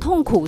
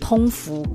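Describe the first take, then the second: First: It is said in Mandarin, sound pushed outward. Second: It is said in Cantonese, sound held in. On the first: The pain is released outward. "讲痛苦是出去的那一种" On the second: The pain is swallowed, deeper and more repressed. "讲通符又感觉是被吃进去的，更深沉更压抑的"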